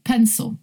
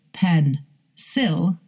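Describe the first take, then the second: First: "pencil" as PEN-suhl, schwa in the ending; reduced second syllable. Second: "pen, sil" split apart with a full second vowel; both syllables unreduced. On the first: Teacher showing what we say, schwa ending. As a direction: say "pencil" joined up, second vowel swallowed. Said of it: "we say". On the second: Teacher showing what we don't say, unreduced vowels. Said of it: "So we don't say pen, sil". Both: Shown as a demonstration.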